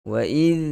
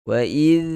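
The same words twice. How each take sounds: No difference in how they are said.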